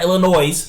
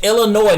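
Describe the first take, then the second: First: The final S is pronounced. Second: The final S is silent. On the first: The speaker calls it wrong. "not Illinois" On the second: The speaker calls it right. "it's Illinois, take off the S, that's silent"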